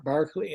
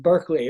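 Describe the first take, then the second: First: BARCLAY with an open "BAR" first syllable; English pronunciation. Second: BERKELEY with a "BURK" first syllable; American pronunciation. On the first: Lecturer giving the English form, BARCLAY said "BARK-lee". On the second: Lecturer naming the philosopher, BERKELEY said "BURK-lee". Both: Shown as a demonstration. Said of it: "as the English would say".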